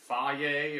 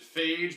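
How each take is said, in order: First: The word ends with a vowel sound. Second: The word ends with a j sound. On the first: The speaker calls it right. "I think it's actually like faye" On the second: The speaker calls it wrong. "I always pronounced it phage"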